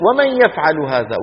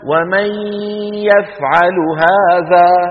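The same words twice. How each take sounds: First: The n merges straight into the following y. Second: The n is pronounced clearly before the y. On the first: The speaker calls it right. "ومن يذهب من فين لفين، من الميم إلى الياء على طول" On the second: The speaker calls it wrong. "لكنه في الوقت نفسه لا يقول"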